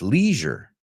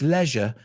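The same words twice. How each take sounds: First: It is said with the American pronunciation. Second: It is said with the British pronunciation. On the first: This is the only way the speaker had known. "It's leisure" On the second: Someone else in Europe said it this way. "somebody said, "Oh, it's leisure.""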